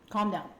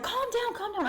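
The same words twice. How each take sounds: First: Said in the usual way. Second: Very high-pitched, insistent plea; urgent soothing, retold. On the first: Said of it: "I'm like". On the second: Girl to freaking-out boyfriend, high insistent retold plea. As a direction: shoot the pitch way up to settle someone. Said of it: "I was like".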